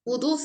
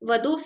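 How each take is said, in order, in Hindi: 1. पहला स्वर 'u' की आवाज़ है। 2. पहला स्वर 'a' की आवाज़ है। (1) "वुदू विद दम्मा बोलना सही है" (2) "वदू सही नहीं है"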